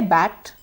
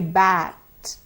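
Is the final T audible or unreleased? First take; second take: unreleased; audible. First: The final T is not released with air. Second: The final T is released with a gush of air. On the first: The speaker calls it wrong. "So I don't say bat" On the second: The speaker calls it right. "Please produce that gush of air at the end of the word"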